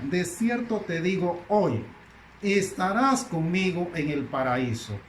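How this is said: The pause comes after hoy.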